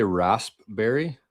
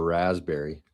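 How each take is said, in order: First: "raspberry" with a clear p, rasp-berry; "raspberry" said as RASP-berry, the p sounded. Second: "raspberry" said as razz-berry, no p; "raspberry" with z sound, p dropped. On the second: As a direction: say "raspberry" as razzberry, slowly. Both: Shown as a demonstration. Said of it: "Is it raspberry or raspberry?".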